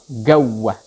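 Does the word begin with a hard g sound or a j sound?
hard g. The word begins with a hard g sound. This is the Egyptian dialect form. "Mesirnya apa?"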